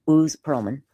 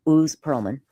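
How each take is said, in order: Both takes have the same delivery.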